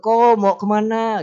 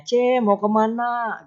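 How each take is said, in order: First: A lightly voiced neighbour calling out, a bit louder; sing-song call across the street; friendly neighbour greeting. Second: A lightly voiced neighbour calling out, slow and drawn out; slow, sing-song call to a neighbour; friendly neighbour greeting. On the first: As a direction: hail a passing man neighbour cheerfully. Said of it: "gitu ya". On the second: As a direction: greet a passing woman neighbour warmly, stretching it. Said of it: "gitu kan ya".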